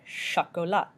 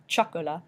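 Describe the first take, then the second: First: It begins with a soft 'sh' sound. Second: It begins with a hard 'ch' sound. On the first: The speaker calls it right. "but chocolat" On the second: The speaker calls it wrong. "Not chocolat"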